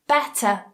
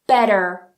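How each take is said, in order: First: It has a clear T and no R. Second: It has a flapped T and an R. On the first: "we don't pronounce the R" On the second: "in American English, it would be more like"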